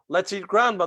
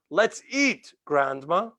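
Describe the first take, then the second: First: It is said without a pause before grandma. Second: It is said with a pause before grandma.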